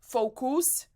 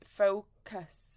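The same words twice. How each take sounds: First: The second vowel is a full, tense vowel. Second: The second vowel is a relaxed schwa. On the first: The speaker calls it wrong. "It's not focus" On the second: The speaker calls it right. "it's focus. Your mouth is relaxed"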